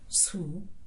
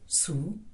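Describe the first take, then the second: First: The syllable is said with a high tone. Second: The syllable is said with a low tone. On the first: It means thorn or prick. "the high tone" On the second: It means to scold or noisy. "for the low tone"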